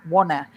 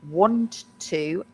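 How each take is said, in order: First: The words blend together with no T heard. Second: The T is clearly pronounced in both words. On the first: "when we speak quickly, you don't hear the T" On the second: "which is really want to"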